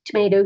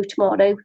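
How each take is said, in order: First: "tomato" with a long ay; to-may-to pronunciation. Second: "tomato" with an open ah; to-mah-to pronunciation. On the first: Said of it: "You say tomato". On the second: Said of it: "I say tomato". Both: Shown as a demonstration.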